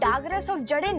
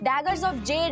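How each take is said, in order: First: Jade is said with two syllables. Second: Jade is said as one syllable. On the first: The speaker calls it wrong. "डागरस of जड़े नहीं है" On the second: The speaker calls it right. "वो daggers of जेड है"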